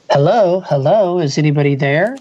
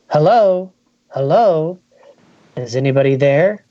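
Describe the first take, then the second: First: Mock shout. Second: Mild mock shout. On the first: The speaker as a kid searching the hiding place calls out, mock shout. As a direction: shout hello into the dark, not full force. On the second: The speaker as a kid calling out looking for hidden players, mild mock shout. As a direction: call into the dark room, lightly raised. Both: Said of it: "his young voice shouting".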